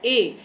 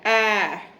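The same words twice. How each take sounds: First: It is said as the long vowel 'ay'. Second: It is said as the short vowel 'a'. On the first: This is the name of the letter. "Normally हम बोलते हैं ए" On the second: This is the sound the letter makes. "फोनिक्स के according हम इसकी sound बोलते हैं ए"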